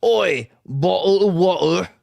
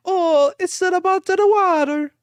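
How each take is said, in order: First: Slow mock English accent. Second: Very high, hammy Italian accent. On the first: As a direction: drop the t's in a broad English accent. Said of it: "my, uh, English or my". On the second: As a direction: sing out a mock Italian accent. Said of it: "That's Italian". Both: Shown as a demonstration.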